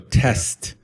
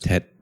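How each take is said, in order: First: It is said with an S before the T. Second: It is said with no S before the T. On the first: "So test" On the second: "test becomes tet"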